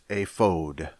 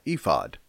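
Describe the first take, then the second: First: The word is said the Hebrew way. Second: The word is said the familiar English way. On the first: This is the original-language pronunciation. The speaker calls it right. "In the Hebrew, it's ephod" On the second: This is the commonly learned pronunciation. The speaker calls it wrong. "You have probably grown up pronouncing that ephod"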